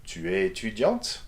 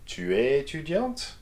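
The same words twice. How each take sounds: First: "Tu es étudiante?" flat until the last syllable of "étudiante", which rises. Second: "Tu es étudiante?" climbing steadily from start to end; gradual rise. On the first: Teacher showing a rise on the last syllable only. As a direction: save the lift for the final syllable of "étudiante". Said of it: "raise your intonation on the very last syllable". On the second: Teacher showing a gradual rise across the question. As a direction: let the pitch climb gradually through "Tu es étudiante?". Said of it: "or gradually". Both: Shown as a demonstration.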